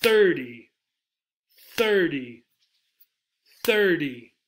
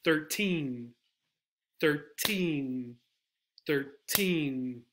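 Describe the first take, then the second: First: Thirty with THIR hit loud; thirty, strong THIR falling away to a weak ty; stress on first syllable. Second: Put-on thirteen with TEEN long and stressed; thirteen, a short first syllable and a drawn-out, falling TEEN; stress on second syllable. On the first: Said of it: "is on the first syllable". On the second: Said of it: "the emphasis is on the second syllable". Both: Shown as a demonstration.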